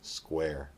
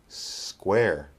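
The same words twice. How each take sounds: First: The S sound is short and ordinary. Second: The S sound is drawn out and exaggerated. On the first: "the second time we'll make a normal S" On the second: "The first time we'll exaggerate the S"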